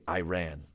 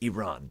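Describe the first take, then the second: First: The name is said the common anglicized way. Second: The name is said closer to the native way. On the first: The speaker calls it wrong. "a lot of English speakers say Iran, but I was corrected" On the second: The speaker calls it right. "how the native speakers say it"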